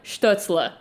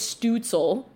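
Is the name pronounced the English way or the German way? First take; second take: German; English. First: The name has a German ü vowel. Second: The name is said with English sounds. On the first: The speaker calls it right. "there is no E in the middle of his goddamn name" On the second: The speaker calls it wrong. "they're going to anglify his name"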